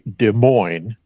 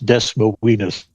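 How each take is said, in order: First: The name is pronounced the usual way. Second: The name is pronounced in a deliberately altered way. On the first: "there is a Des Moines here in Washington State" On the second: "deliberately mispronounce it as Des Moines"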